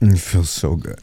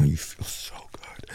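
First: Said in the usual way. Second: Slow breathy whisper. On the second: Acted. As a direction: whisper it slowly into her ear. Intimate, said then repeated aloud.

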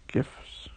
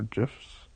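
First: "Gifs" with a hard g, as in gift; hard-g pronunciation. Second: "gifs" with a soft g, like "jiffs"; soft-g pronunciation. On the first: Trying options on partner, hard-g "Gifs". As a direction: start "Gifs" with g as in go, short i. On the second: Offering partner another option, soft-g "gifs". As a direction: start "gifs" with a j sound, short i. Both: Shown as a demonstration. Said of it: "No one knows how to pronounce it".

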